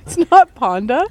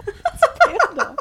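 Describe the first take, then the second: First: Ponda said loudly with an open "ah"; wrong vowel rejected. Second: Panda squealed high with a flat "a", through laughter; right vowel, laughing. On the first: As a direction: hit Ponda with a broad first vowel. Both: Real, not acted. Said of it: "I'm mispronouncing the wrong name".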